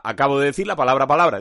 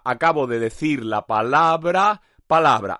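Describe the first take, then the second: First: Quick, run together, palabra palabra tossed off; quick throwaway demo of the phrase; fast rattled repeat. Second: Slowed down, palabra palabra spelled out; slow it right down for the tongue twister; slow, deliberate demo of the phrase; slow careful repeat. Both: Shown as a demonstration.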